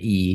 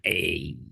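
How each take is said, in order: First: The word is said with an 'ee' vowel. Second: The word is said with an 'ay' vowel. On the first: "as opposed to E" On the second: "I always read it as A"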